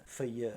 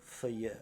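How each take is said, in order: The two takes are said the same way.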